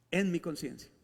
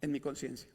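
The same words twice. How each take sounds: First: Said in the usual way. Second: Dropped low and soft: En mi conciencia; soft, low answer with en mi conciencia; quiet answer. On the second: Shown as a demonstration. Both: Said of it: "¿Pero dónde ocurre eso?".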